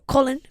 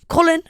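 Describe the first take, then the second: First: The name is said with an American accent. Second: The name is said with a British accent.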